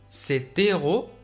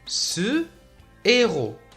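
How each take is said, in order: First: A t sound links the demonstrative to héros. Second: No t sound; the demonstrative stays separate. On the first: The speaker calls it wrong. "لا نقول" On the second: The speaker calls it right. "بل نقول"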